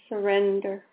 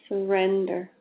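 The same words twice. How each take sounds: The two takes are said the same way.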